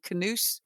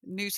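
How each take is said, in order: First: The name is said with two syllables. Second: The name is said with one syllable. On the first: The speaker calls it wrong. "I used to go around calling him Canute" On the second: The speaker calls it right. "you've corrected me there. So I now know in future"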